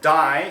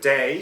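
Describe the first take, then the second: First: The vowel sounds like the one in 'die'. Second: The vowel sounds like the one in 'day'. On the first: This is how the speaker with the strong accent says it. "so he says uh, die instead of day" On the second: This is the usual form of the word. "instead of day"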